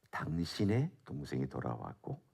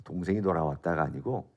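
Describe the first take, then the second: First: 당신의 leaned on, softer, rising; stress on 당신의. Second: Said in the usual way. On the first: Shown as a demonstration. Preacher shows the congregation the key word, 당신의 stressed. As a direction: press the word 당신의 so the brother's tie is clear. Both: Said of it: "강조하고 있는 메시지가 뭐냐면".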